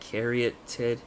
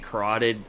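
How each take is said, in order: First: The word sounds like caryatid. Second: The word sounds like carotid. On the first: The speaker calls it right. "It's uh, caryatid" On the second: The speaker calls it wrong. "I say carotid. I, I can never say this word right"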